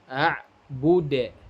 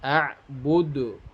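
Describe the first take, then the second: First: It ends with an added e vowel. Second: It ends with an added u vowel. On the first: "tidak boleh" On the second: "tidak boleh"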